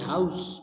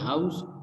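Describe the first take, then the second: First: The final consonant is an s sound. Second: The final consonant is a z sound. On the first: The speaker calls it right. "Correct pronunciation में सा की sound आएगी" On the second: The speaker calls it wrong. "जा की sound आ रही है"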